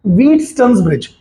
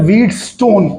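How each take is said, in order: First: व्हीटस्टोन्स ब्रिज with the s sound kept before ब्रिज; correct pronunciation. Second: व्हीटस्टोन said as one word, ending stone, the way students wrongly say it; wrong pronunciation. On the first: Teacher gives students the right pronunciation, careful and clear. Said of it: "इसका right pronunciation है". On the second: Teacher mimics students' wrong version of the name, mispronounced. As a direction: mimic the common mistake, व्हीटस्टोन. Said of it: "अरे व्हीटस्टोन नहीं भाई". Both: Shown as a demonstration.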